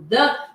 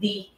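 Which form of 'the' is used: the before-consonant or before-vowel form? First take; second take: before-consonant; before-vowel. First: The word uses its usual before-consonant form. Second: The word uses its changed before-vowel form. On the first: "é uma consoante que vem depois do the" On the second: "eu vou fazer com que a pronúncia do the vire the"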